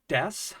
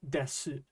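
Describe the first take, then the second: First: The word ends on an s sound. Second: The word ends with an oo vowel. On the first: "like an S sound" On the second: "with an oo sound"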